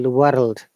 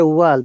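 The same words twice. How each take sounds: First: A Scottish accent with a rolled R. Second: A British accent with no rolled R. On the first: "they say" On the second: "We say"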